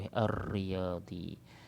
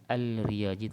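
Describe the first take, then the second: First: "Ar-Riyadi" very slow, long doubled R, no L; straight into ra. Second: "Al-Riyadi" with an L pronounced before R; mistaken sounded lam. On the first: Teacher giving the proper reading, "Ar-Riyadi" with held R. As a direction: roll and hold the R in "Ar-Riyadi". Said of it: "kita terus sebut huruf ra tu". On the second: Teacher showing a disallowed reading, clear L in "Al-Riyadi". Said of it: "dia baca Al-Riyadi tak boleh". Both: Shown as a demonstration.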